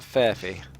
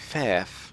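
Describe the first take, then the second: First: The name is said as two syllables. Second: The name is said as one syllable. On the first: This is how others assumed the name was said. The speaker calls it wrong. "not Furphy" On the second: This is how the player says his own name. The speaker calls it right. "He prefers to be called Fairf"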